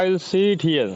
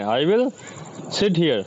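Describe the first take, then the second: First: The vowel in 'sit' is long. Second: The vowel in 'sit' is short. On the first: The speaker calls it wrong. "ऐसा नहीं, गड़बड़ हो जाएगा" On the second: The speaker calls it right. "वो समय बहुत कम लगाना है"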